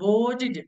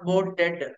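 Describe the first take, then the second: First: The final syllable sounds like 'tid'. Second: The final syllable sounds like 'ted'. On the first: The speaker calls it right. "must be pronounced like" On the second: The speaker calls it wrong.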